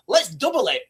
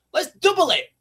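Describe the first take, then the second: First: Said in the usual way. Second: Let's double it with "double" punched higher and louder; "double" thrown up high, like upping a bet; emphatic. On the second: Shown as a demonstration. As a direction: push hard on "double".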